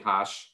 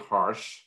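First: It is said in a Boston accent. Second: It is said in a Vermont accent. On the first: "in my Boston accent, I'll say" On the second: "up here in Vermont, I have to say"

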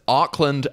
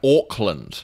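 First: It is said in a US accent. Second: It is said in a New Zealand accent.

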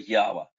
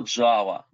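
First: The name is pronounced the Russian way. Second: The name is pronounced the English way. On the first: "по-русски это называется Ява" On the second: "по-английски это Java"

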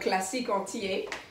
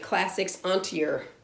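First: It is said with a French accent. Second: It is said with an American English accent. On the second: "With an English American accent, you would probably say"

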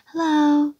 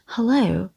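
First: It is called out high and loud, as if far away. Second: It is said plainly with a weak first syllable. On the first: "đang gọi cao, gọi xa thôi mà" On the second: "chúng ta đọc là hờ, hello"

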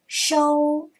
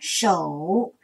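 First: The syllable has a high level tone. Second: The syllable has a low dipping tone. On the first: "一声收" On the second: "三声手"

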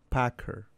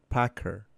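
Both takes have the same delivery.

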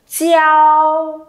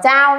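First: The ch is followed by an ee glide. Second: The ch goes straight into an ao sound. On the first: The speaker calls it right. "phải là gì?" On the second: The speaker calls it wrong. "tuyệt đối không đọc là chao nhá"

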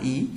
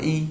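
First: The word is said with a changed tone. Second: The word is said with its usual tone. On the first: "y sẽ đọc là ý khi từ kế tiếp kết thúc bằng dấu huyền" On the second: "Bình thường y nó vẫn đọc là y"

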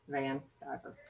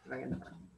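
First: The two words are said clearly apart. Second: The two words are slurred together.

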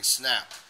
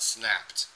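First: The word ends without a final T sound. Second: The word ends with a clear final T sound. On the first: The speaker calls it wrong. "same with snapped. I'm getting snap" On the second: The speaker calls it right. "not snapped"

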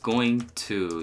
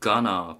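First: It is said in the full form. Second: It is said in the reduced form.

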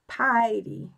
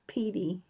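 First: The first vowel sounds like 'eye'. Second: The first vowel sounds like 'ee'. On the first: The speaker calls it right. "it rhymes with Heidi" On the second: The speaker calls it wrong. "Or I hope I'm saying that right"

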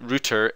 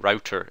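First: It is said with a British pronunciation. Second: It is said with an American pronunciation.

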